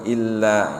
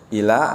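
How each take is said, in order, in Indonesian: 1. Bunyi l-nya ditahan dan dobel. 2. Bunyi l-nya pendek dan tunggal. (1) "padahal tuh illa gitu" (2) "baca ila kan gitu kan"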